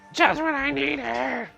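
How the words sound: It is said in a put-on cartoon character voice.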